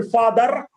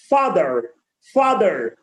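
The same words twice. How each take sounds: First: "father" ending on a heavy R; over-stressed R. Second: "Father" lower, with a light final R; corrected pronunciation. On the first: Teacher showing how people say it, over-stressed R. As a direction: push the final R in "father". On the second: Teacher modelling for learners, corrected pronunciation. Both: Shown as a demonstration. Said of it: "we are stressing more of the R".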